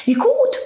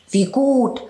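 First: Very high, bright little cry; delighted meadow. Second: Higher, wry little mouse voice; the mouse pleased for her own reasons; sly field mouse. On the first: Meadow greeting the falling snow, high delighted cry. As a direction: squeal with pleasure at the snow. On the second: Field mouse glad her door is hidden, wry and higher. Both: Acted.

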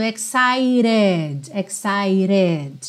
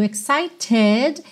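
First: EXCITED as "ek-sai-red", final E sounded; flapped T. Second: EXCITED with a clear T, "ek-sai-ted"; full T. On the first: Teacher models American linking, tapped T. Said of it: "ele usou o som do rarará". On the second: Teacher names the word before explaining, clear T. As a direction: sound the T in EXCITED. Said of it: "esse T aqui do excited". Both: Shown as a demonstration.

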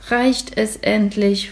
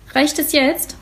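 First: Slow, weary "Reicht es endlich?"; slow, sleepy question; tired. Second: Higher, cross and impatient "Reicht es jetzt?"; a scowling boy in the bathtub, fed up; mock-cross higher question; grumpy. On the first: Acted. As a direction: drag it out like he's worn out from scrubbing. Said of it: "fragt Florian müde". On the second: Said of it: "macht ein böses Gesicht".

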